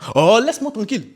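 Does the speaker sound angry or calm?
angry. It is said in an angry, annoyed tone. The speaker is genuinely upset with the listener. "L'émotion n'est pas la même"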